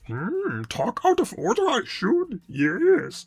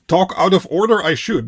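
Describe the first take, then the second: First: It is said in a Yoda impression. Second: It is said in his normal voice.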